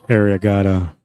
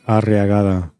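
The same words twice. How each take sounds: First: It is said Canadian-style without rolled R's. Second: It is said Spanish-style with rolled R's.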